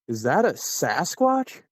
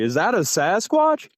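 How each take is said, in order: First: It is said fairly quietly. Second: It is said a bit louder.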